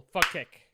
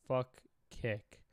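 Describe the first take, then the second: First: Fuck Kick run together as one loud syllable, chanted to the chat. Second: Fuck Kick split cleanly into two separate words, Fuck then Kick; two syllables. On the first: Streamer leads chat in a chant, one syllable, loud. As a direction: blur Fuck Kick into one shouted beat. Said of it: "One syllable". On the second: Streamer re-says it to chat in two syllables, spaced apart. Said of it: "I'll say it in two syllables". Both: Shown as a demonstration.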